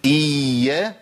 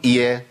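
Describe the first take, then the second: First: إيا with the doubled ya drawn out slowly; doubled ya held long. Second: إيا said short with only one ya; single ya. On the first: Teacher showing students the doubled letter, إيا with ya held long. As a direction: hold the y of إيا for two letters. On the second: Teacher showing the mistake, إيا with a single short ya. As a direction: cut the doubled y of إيا down to one. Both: Shown as a demonstration. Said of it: "واجيب ياء واحدة".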